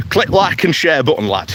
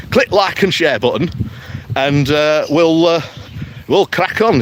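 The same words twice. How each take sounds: First: Put-on light Yorkshire accent, "click" stressed, falling at the end; a cheeky Yorkshire sign-off with "click" punched and a falling tune. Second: Put-on light Yorkshire accent, "Click" stressed, rising at the end; a bouncy Yorkshire plug with "Click" hit and an upward lilt. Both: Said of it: "take my Yorkshire accent off".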